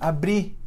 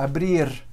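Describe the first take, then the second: First: The final R is dropped entirely. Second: The R sounds almost Spanish. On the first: "não tem R mais" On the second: "parece quase espanhol"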